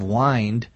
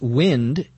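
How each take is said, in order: First: It has a long vowel, like 'wine'. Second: It has a short vowel, like 'win'. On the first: It is the verb in the phrase meaning to relax. "instead of wind" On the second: It is a noun for air that moves quickly. "When it is pronounced wind instead of wind, it's a noun referring to air that moves quickly"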